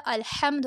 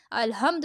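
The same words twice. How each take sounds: First: "الحمد" with h squeezed from the throat; correct throat h. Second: "الحمد" said as "al-humd"; wrong rounded h. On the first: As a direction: open "al-Hamd" for "الحمد". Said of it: "الحمد ہوتا ہے". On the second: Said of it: "الحمد نہیں ہوتا". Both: Shown as a demonstration.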